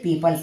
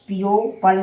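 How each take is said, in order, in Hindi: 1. p के बाद कोई o स्वर उच्चारित नहीं होता। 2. p के बाद एक अतिरिक्त o स्वर उच्चारित होता है। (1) "इसे पीपल पढ़ेंगे" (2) "पीओ पल नहीं"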